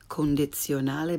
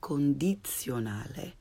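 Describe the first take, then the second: First: The i vowel is lax, like English 'ih'. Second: The i vowel is tense, like English 'ee'. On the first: The speaker calls it wrong. "Not condizionale" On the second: The speaker calls it right. "but condizionale"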